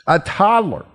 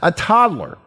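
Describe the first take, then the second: First: Put-on toddler said even higher after a pause; dramatic repeat. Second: Put-on toddler said high and weighty; dramatic buildup. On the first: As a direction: hold the pause, then toddler. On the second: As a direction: tease the word toddler. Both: Shown as a demonstration. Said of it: "here's some common sense".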